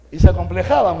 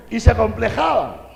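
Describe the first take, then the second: First: The same words again, much louder and pressed; louder repeat. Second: Laughing. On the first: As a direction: hammer the point home. Repeats it for emphasis. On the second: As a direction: chuckle the words out. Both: Acted.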